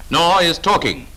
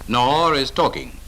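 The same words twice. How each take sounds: The two takes are said the same way.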